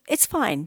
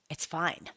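First: It is said in a sincere, reassuring tone. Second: It is said in a curt, dismissive tone. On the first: Everything really is okay. "if you're genuinely saying" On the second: The speaker is actually upset about it.

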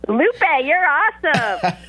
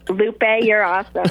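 First: It is said with lively enthusiasm. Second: It is said in a plain, flat way.

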